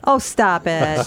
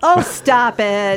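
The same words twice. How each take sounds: First: Slow, drawn-out oh stop it; mock scolding. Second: Very slow, drawn-out oh stop it; mock scolding. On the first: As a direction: playfully drag it out. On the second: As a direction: stretch it out, teasing. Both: Real, not acted. Teasing co-host.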